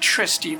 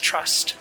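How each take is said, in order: First: The name is said with two syllables. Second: The name is said with one syllable. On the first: The speaker calls it wrong. "Not Tristy" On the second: The speaker calls it right. "It's pronounced as Trust"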